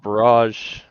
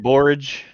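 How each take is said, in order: First: The word sounds like 'barrage'. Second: The word sounds like 'borage'. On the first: The speaker uses this pronunciation because it sounds fancier. "I call it barrage. It sounds fancier" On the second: Another person uses this pronunciation. "Steve calls it borage"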